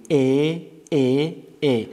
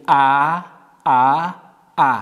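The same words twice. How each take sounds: First: "ا" said as "e", drawn out; kasra vowel. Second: "ا" said as a short-a sound, drawn out; fatha vowel. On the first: Teacher models kasra for pupils, drawn-out "e" on "ا". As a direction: hold "ا" as a mid front "e". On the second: Teacher models fatha for pupils, open drawn-out "a" on "ا". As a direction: hold "ا" as an open "a". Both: Shown as a demonstration.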